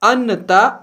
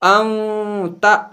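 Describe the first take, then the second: First: The n sound is pronounced fully and clearly. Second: The n sound is hidden in the nose. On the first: The speaker calls it wrong. "यहां अन्नता नहीं पढ़ सकते" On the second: The speaker calls it right. "नून की आवाज को नाक में छुपाकर"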